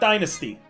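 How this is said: The word is said with an American pronunciation. "Dynasty is the American way of saying it"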